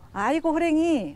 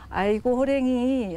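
First: It is said in a glad, welcoming tone. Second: It is said in a sad, sympathetic tone. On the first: The speaker is happy to see someone arrive. "반가운 사람들이 왔을 때 딱 보고" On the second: The speaker shares someone's grief over a sad event. "슬픈 일을 당했을 때 그런 마음을 이제 같이 동감하기 위해서"

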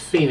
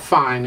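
First: It is said the Italian way, 'fee-nay'. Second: It is said like the English word 'fine'. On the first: The speaker calls it right. "it's fine. It's Italian" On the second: The speaker calls it wrong. "Fine is not fine"

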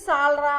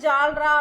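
First: The word begins with an 's' sound. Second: The word begins with a 'j' sound. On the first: This is the name the instrument is given. "இது வந்து சால்ரா அப்படின்னு சொல்லுவாங்க" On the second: This is the everyday spoken form. "நம்ம உச்சரிக்கும் போது ஜால்ரா அப்படின்னு சொல்லுவோம்"

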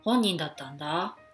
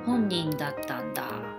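First: The pitch goes down, then goes up. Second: The pitch goes down and stays down.

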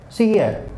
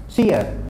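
The two takes are said the same way.

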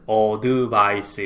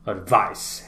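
First: The word is split into five separate syllables. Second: The word is said in two syllables. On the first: The speaker calls it wrong. "우리는 advice 이렇게 해서 총 다섯 번의 소리를 내네요" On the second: The speaker calls it right. "원어민들은 advice 해서 두 번의 소리를 냅니다"

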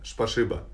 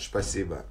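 First: The 's' sounds are replaced by 'sh' sounds. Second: The word is said with plain 's' sounds.

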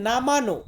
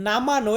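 Both takes have the same delivery.

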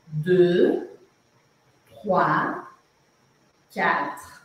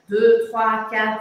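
First: The numbers are said more slowly. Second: The numbers are said at normal speed.

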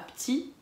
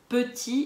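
First: The first vowel of petit is dropped. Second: The first vowel of petit is clearly pronounced. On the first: The speaker calls it wrong. "et pas petit" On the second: The speaker calls it right. "on pense bien à dire petit"

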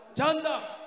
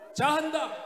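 Both takes have the same delivery.

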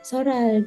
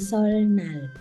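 First: It is said quickly with the n becoming l. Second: It is said slowly with a clear n sound. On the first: "ส่วนใหญ่แล้วเขาจะพูดเร็วๆแล้วเสียงจะเปลี่ยนนะคะ,เป็นซอรัล" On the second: "ถ้าเกิดพูดช้าๆคือซอนัล"

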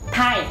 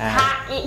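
First: It is said quickly as one syllable. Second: It is said slowly, syllable by syllable.

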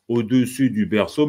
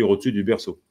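First: Every syllable is pronounced in full. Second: The vowel in 'dessus' is dropped. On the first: "Je ne dis pas" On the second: "mais je dis"

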